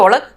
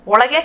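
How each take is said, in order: First: ಒಳಗ್ ending on the g; colloquial short form. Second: Said in the usual way. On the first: Shown as a demonstration. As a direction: drop the final e so ಒಳಗ್ is "olag". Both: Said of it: "इसको बोलेंगे".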